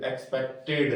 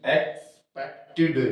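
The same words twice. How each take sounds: First: एक्सपेक्टेड ending on एड, lower and softer; wrong way. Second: एक्सपेक्टेड said slowly, ending in इड; right way. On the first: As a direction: say एक्सपेक्टेड with एड at the end. (गलत उच्चारण एक्सपेक्टेड, अंत में एड) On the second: (सही उच्चारण एक्सपेक्टेड, धीरे, इड के साथ) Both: Shown as a demonstration. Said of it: "एक्सपेक्टेड नहीं".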